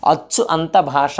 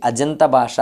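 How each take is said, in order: First: "అచ్చు అంత భాష" with achchu kept apart from anta; unjoined split form. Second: "అజంత భాష" as one fused ajanta; joined sandhi form. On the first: Teacher showing what is hard, "అచ్చు అంత భాష" unjoined. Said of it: "అనడం కష్టంగా ఉంది". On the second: Teacher showing what is easy, "అజంత భాష" joined with j. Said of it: "సులభంగా ఉంది". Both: Shown as a demonstration.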